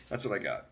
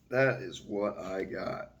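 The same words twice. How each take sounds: First: Said in the usual way. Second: "That is what I got" slowed, each word landed; measured, deliberate sign-off; slow emphatic restatement. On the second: Shown as a demonstration. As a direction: spell out "That is" deliberately for weight. Repeats closing line, second slower.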